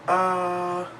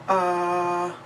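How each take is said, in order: First: The pitch stays high and level. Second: The same.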